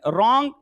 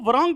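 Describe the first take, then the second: First: The w at the start is silent. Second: A w sound is pronounced at the start. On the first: The speaker calls it right. "डब्लू silent रहता है" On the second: The speaker calls it wrong. "वो उसको ध्यान ही नहीं होता"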